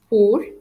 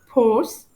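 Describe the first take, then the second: First: The final C sound is silent. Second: The final C sound is pronounced. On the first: The speaker calls it right. "We pronounce it as pour" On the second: The speaker calls it wrong. "We don't pronounce it as pores"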